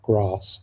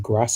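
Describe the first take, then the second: First: The vowel is said a non-northern way. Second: The vowel is said the northern English way. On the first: "and not grass" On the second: "I say grass"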